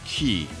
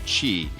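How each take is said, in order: First: The syllable begins with a k sound. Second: The syllable begins with a ch sound. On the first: The speaker calls it wrong. "not a ki" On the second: The speaker calls it right. "the Q in the I is more of a chi"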